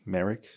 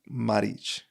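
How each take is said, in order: First: The surname is said with an English pronunciation. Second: The surname is said with a Croatian pronunciation. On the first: The speaker calls it wrong. "here in the in English they pronounce it fucked up" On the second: The speaker calls it right. "but it's more like Maric"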